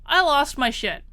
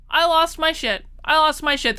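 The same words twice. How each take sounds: First: Said in the usual way. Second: Lost hit harder and higher; stress on lost. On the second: Real, not acted. Confessing to her viewers, leaning on lost. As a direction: lean on the word lost. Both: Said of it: "I'm gonna be honest".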